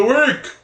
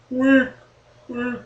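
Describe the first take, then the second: First: Said in the usual way. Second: Fading echo repeats; self-made echo. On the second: Pretend. Host announcing a segment, echoing WEEK in fading repeats. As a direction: repeat WEEK short, each softer, like an echo. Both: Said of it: "It's an echo usually".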